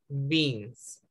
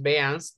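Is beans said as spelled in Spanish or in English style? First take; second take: English-style; Spanish-style. First: The word has English vowel and sounds. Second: The word is read out as spelled. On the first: The speaker calls it right. "sino pronunciamos beans" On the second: The speaker calls it wrong. "pero no pronunciamos beans"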